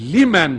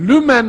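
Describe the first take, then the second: First: The first vowel is unrounded, like i. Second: The first vowel is rounded, like ü. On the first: The speaker calls it right. "Hayır. Semi Allahu limen hamidehtir orası. Limendir" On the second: The speaker calls it wrong. "mana ve Arapça inceliklere vakıf olmadıkları için Semi Allahu lümen hamideh diyorlar"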